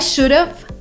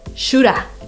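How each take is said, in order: First: Both words are pronounced fully and separately. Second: The words blend into one reduced word. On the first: The speaker calls it wrong. "they would teach us to say" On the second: The speaker calls it right. "So what is an easy way? Shoulda"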